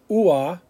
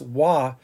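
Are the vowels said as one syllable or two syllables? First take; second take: two syllables; one syllable. First: The vowels are split into two syllables. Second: The vowels blend into one syllable. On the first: The speaker calls it wrong. "We're not saying ua" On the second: The speaker calls it right. "it's wa"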